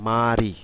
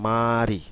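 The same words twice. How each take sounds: Both takes have the same delivery.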